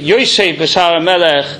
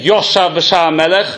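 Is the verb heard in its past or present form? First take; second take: present; past. First: The verb is voiced with its present-tense vowels. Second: The verb is voiced with its past-tense vowels. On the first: The sitting is happening now. The speaker calls it right. "instead of saying" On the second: The sitting happened before. The speaker calls it wrong. "you change the hoiva to the ova"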